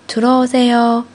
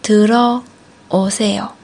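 First: It is said at a faster pace. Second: It is said at a slower pace.

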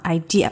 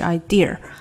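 First: The word ends plainly with no r sound. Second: The word ends with an added r sound. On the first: The speaker calls it right. "Idea 不能有er 的音哈idea" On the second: The speaker calls it wrong. "不是idea"

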